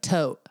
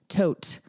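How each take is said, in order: First: The final T sound is dropped. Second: The final T sound is pronounced. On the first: "It's like I can't say the last T. It's just like tote" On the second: "Like I don't say the tote"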